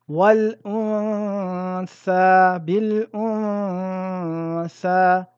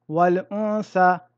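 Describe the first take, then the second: First: The n is held as a two-count nasal hum. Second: The n is pronounced clearly with no nasal hold. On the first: The speaker calls it right. "respectez un arrêt court sur la ronna" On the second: The speaker calls it wrong. "Il ne faut pas dire wal unsa"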